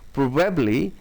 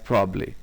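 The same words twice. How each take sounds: First: All three syllables are pronounced in full. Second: A syllable is dropped, giving two syllables.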